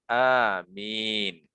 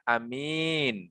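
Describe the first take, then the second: First: The first vowel is long, with a single m. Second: The first vowel is short, with a single m. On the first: "dibaca seperti lafadz Yasin" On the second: "Boleh juga dibaca seperti yamin"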